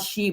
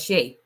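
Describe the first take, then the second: First: The vowel is a long 'ee' sound. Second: The vowel is an 'ay' sound. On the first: The speaker calls it wrong. "not she" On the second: The speaker calls it right. "but Shay, like Shea butter"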